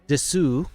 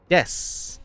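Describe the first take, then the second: First: The word ends with a full final u vowel. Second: The word ends on the s, no final vowel. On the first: The speaker calls it wrong. "Not desu, as it looks like" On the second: The speaker calls it right. "You drop the oo off of there"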